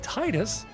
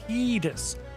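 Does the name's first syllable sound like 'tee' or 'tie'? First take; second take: tie; tee. First: The first syllable sounds like 'tie'. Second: The first syllable sounds like 'tee'. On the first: This form comes from the word for the sea's tide. The speaker calls it wrong. "many English speakers say Titus, due to the water theme, tide" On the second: This is the official form of the name. The speaker calls it right. "The official pronunciation of Titus in ten is Titus, ... derived from the Okinawan word for sun, Tita"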